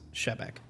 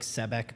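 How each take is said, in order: First: The name begins with an sh sound. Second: The name begins with a plain s sound. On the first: This is the name's proper pronunciation. "there's like a little like check mark above the S, so it's Shebek" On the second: This is how other people usually say it. "people go like Sebek because it's S E B E K"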